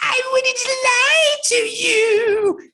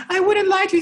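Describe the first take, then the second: First: Very high, slow, shouted mock sob; hammed-up, slow, high shout mocking her crying. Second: Very high, wailing imitation of her crying; high tearful plea, hammed up; mock crying woman. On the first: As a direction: cruel high mocking wail. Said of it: "making fun of her voice as she's crying". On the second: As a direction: whimper it in a high, sobbing falsetto. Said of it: "she's like".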